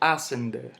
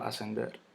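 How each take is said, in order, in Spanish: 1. El acento cae antes de la última sílaba. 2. El acento cae en la última sílaba. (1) "yo no digo ascender" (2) "yo digo ascender"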